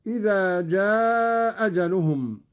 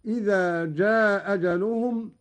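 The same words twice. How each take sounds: First: جاء أجلهم with one hamza and a long-held aa; first hamza dropped, lengthened. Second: جاء أجلهم run together with one hamza and a short aa; first hamza dropped, short. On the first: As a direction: stretch the aa of جاء, then a single hamza into أجلهم. (إسقاط الهمزة الأولى في جاء أجلهم مع المد) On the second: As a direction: recite جاء أجلهم as jaa-ajaluhum, keeping the aa short. (إسقاط الهمزة الأولى في جاء أجلهم مع القصر) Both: Shown as a demonstration. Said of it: "وله القصر والمد هكذا".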